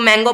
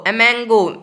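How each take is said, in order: First: The word begins directly with an m sound. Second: The word begins with an extra 'em' vowel sound. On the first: The speaker calls it right. "मैंगो पढ़ते हो" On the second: The speaker calls it wrong. "एमेंगो नहीं पढ़ते हो"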